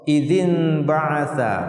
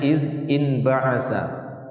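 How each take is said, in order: First: The first word links onward through an added vowel. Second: The first word ends abruptly before the next. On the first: This is the smoothed form used in recitation. "supaya memperindah bacaan" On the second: This is the underlying original form. "aslinya iz in ba'atha"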